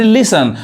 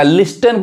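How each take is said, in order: First: लिसन with no t, "lis-un"; लिसन as "LIS-sun"; silent T. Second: लिस्टन with the t sounded; लिस्टन misread with audible t; wrong pronunciation. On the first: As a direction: say लिसन dropping the t. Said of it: "यहाँ टी silent है". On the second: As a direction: say लिस्टन as "lis-ten" with a hard t. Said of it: "पढ़ेंगे तो गलत हो जाएगा". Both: Shown as a demonstration.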